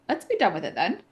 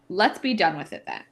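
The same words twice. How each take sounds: First: It is said in a put-on accent. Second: It is said in a plain, regular voice.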